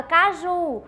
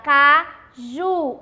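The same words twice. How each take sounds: First: Said in the usual way. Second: "caju" split slowly, stress on the final "ju"; ênfase em JU. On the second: Shown as a demonstration. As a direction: say "caju" syllable by syllable, landing on "ju". ("caju" devagar, separando as sílabas, com força no "ju") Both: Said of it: "se a gente for pronunciar".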